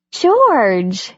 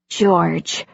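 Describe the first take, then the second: First: Startled, raised call of his name; surprised to find him home. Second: Said in the usual way. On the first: Acted. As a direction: caught off guard, blurt the name. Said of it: "she said, surprised".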